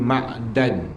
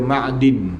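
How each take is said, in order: First: The vowel after the d is 'a'. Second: The vowel after the d is 'i'. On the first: "dibaca dengan baris atas dal" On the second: "baca dengan baris di bawah dalnya"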